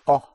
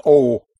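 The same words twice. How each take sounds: First: O as a short, open "aw"; O cut short, one pure vowel; pure Spanish O. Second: O as a glided "oh-oo"; O rounded off into "oo", the sound to avoid; English O. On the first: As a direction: say O without any glide. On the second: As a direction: say O loudly as the English letter name. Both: Shown as a demonstration. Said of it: "Not an O".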